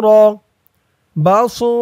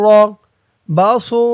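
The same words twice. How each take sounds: No difference in how they are said.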